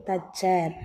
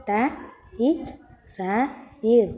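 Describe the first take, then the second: First: Said in the usual way. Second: த, இச், ச, இர், each sound separate; teacher spelling த, இச், ச, இர் sound by sound; sounding out letters. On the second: Shown as a demonstration. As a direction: break தச்சர் into த, இச், ச, இர். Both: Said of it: "இன்னொரு முறை சொல்லுங்க".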